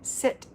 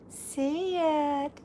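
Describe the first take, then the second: First: It is said in a firm, commanding tone. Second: It is said in a soft, coaxing tone.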